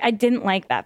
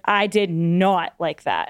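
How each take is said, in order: First: The negative is contracted to didn't. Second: The negative is said in full, did not. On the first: A plain statement without extra weight. "I wouldn't say" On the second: The point is being emphasized. "more of like an emphasis thing"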